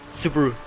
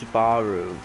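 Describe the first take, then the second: First: The word is said quickly with short vowels. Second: The word is said slowly with stretched vowels. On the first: This is how native speakers say it. "like they say it quickly" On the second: This is how English speakers say it. "in English they tend to pronounce it longer"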